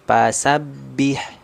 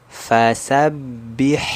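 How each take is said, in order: First: The first sound is a p with both lips. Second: The first sound is an f, teeth on lip. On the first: The speaker calls it wrong. "Jangan pasabih pa pa. ... bibir atas, bibir bawah melekat ... ini kurang tepat" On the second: The speaker calls it right. "harusnya dia gigi seri atasnya yang menyentuh ke perut bibir bawah"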